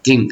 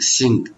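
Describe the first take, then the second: First: It begins with a d sound. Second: It begins with an s sound. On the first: "It's not re like Asians like to like dink" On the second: "They don't want to use their tongue too much"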